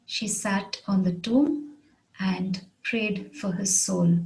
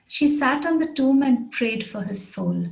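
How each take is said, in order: First: Measured dictation with gaps between phrases. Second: Said in the usual way. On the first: Shown as a demonstration. Example repeated slowly for learners.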